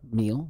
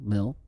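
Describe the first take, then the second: First: The vowel is long, like in 'meal'. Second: The vowel is short, like in 'mill'. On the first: The speaker calls it wrong. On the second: The speaker calls it right.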